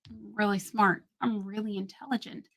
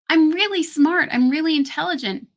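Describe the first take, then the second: First: It is said with flat, low energy. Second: It is said with lively, high energy.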